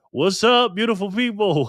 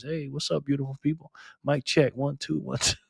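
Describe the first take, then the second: First: High, drawn-up excited hail; imitated catchphrase greeting. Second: Lightly imitated radio DJ; a hint of smooth DJ mic-check patter. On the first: Streamer mimics Backpacker's video greeting, high and excited. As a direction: call it out like a channel host's big opener. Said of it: "I can hear him saying that too". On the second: Streamer mimics Backpacker's smooth talk, lightly voiced radio DJ. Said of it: "got that radio voice".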